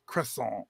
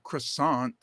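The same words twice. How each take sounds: First: "croissant" as kruh-SAWN, dropping the T; French pronunciation. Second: "croissant" as kruh-SAHNT with a sounded T; English pronunciation. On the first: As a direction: softly correct "croissant" to the French ending. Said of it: "it's croissant". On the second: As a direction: say "croissant" the American way. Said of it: "it's not croissant". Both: Shown as a demonstration.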